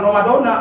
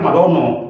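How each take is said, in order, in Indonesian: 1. Kata itu diakhiri dengan vokal a. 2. Kata itu diakhiri dengan vokal o. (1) "jangan Ramadona" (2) "apalagi Ramadono. Salah"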